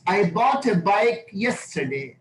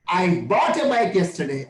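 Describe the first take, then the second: First: It is said with neutral, even stress. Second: The word bought is stressed.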